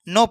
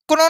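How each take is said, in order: First: The word begins directly with an N sound. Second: The word begins with a clear K sound. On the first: The speaker calls it right. "नो सीधा क्या पढ़ेंगे, नो पढ़ेंगे" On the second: The speaker calls it wrong. "क्नो नहीं, का नहीं पढ़ेंगे"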